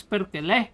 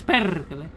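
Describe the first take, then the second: First: "Perkele" with the final "le" punched and raised; stress on last syllable. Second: "Perkele" with "Per" punched, long rolled r; front-stressed "Perkele", trilling the r; stress on first syllable. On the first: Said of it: "the emphasis on the last one". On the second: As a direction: hit the "Per" of "Perkele", let the rest fall. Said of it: "with the emphasis on the P". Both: Shown as a demonstration.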